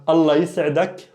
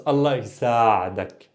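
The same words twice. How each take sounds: First: "Allah yis'adak" with a short vowel after y, s straight into ayn; no long a in "yis'adak"; without extension. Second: "Allah yisa'adak" with a long drawn-out saa; the extension. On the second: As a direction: stretch the a before the ayn in "yisa'adak". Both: Shown as a demonstration. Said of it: "pay attention to the extension".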